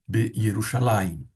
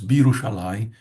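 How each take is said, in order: First: The preposition is said as its own separate syllable. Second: The preposition merges with the name's first syllable. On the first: The speaker calls it wrong. "Se alguém falar Be Yerushalayim, não está completamente errado" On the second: The speaker calls it right. "mas o correto mesmo seria Birushalayim"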